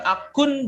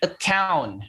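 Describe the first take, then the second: First: It is said like the Indonesian loanword akun. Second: It is said with the English pronunciation account. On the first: The speaker calls it wrong. "bacanya bukan akun" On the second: The speaker calls it right. "tapi account"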